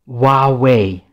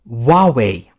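No difference in how they are said.

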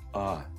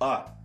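First: The vowel starts smoothly, with no click. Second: The vowel starts abruptly with a glottal click. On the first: "Это мягкая атака" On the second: "Звук начинается как бы со щелчка"

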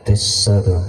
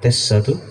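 First: The low frequencies are strongly boosted. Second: The middle frequencies are boosted. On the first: "Suara bassnya itu terasa banget" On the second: "Midnya coba kita naikkan yuk"

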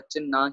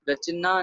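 First: No vowel follows the 'ch' sound. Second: An 'i' vowel follows the 'ch' sound. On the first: The speaker calls it right. "रचना ही पढ़ा जा रहा है, चच्चे मुक्ता उच्चारण किया जा रहा है" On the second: The speaker calls it wrong. "रचना नहीं पढ़ा जा रहा"

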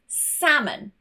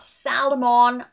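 First: The L sound is silent. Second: The L sound is pronounced. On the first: The speaker calls it right. "L is silent when it is in the middle and immediately before it is an A" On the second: The speaker calls it wrong. "Not salmon, I've heard this many a time"

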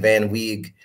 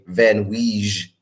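First: The second word sounds like the English word wig. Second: The second word gets a fancier, non-English ending. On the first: "it's technically pronounced Van Wig, like a van and a wig" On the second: "I try to get fancy sometime"

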